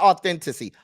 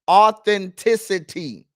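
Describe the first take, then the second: First: The word is not said with five syllables. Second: The word is said with five full syllables. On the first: The speaker calls it wrong. "Not authenticity" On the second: The speaker calls it right. "Five syllables, sir"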